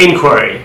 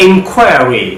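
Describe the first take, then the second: First: ইনকোয়ারি as "IN-kwuh-ree"; American front-stressed ইনকোয়ারি; American pronunciation. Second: ইনকোয়ারি as "in-KWAIR-ee"; long stressed middle in ইনকোয়ারি; British drawn-out second syllable in ইনকোয়ারি; British pronunciation. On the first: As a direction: stress the first syllable of ইনকোয়ারি, short middle. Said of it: "কীভাবে আমেরিকানরা sound করে". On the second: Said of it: "কীভাবে ব্রিটিশে sound করে". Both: Shown as a demonstration.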